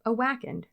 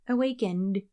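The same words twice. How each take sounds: First: "Awakened" with a short flat A, as in whack; odd alternative pronunciation. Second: "Awakened" with a long AY; company-name pronunciation. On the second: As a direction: say "Awakened" as a-WAKE-end. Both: Shown as a demonstration. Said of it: "name their company something normal instead".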